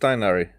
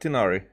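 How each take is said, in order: First: The name is said the English way. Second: The name is said the Japanese way. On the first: "So now it's" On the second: "But in the Japanese, it said"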